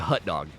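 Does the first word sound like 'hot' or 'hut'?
hut. The first word has a short 'uh' vowel, like 'hut'. This is how the speaker naturally says it. "that's the way I say. I say hut dog"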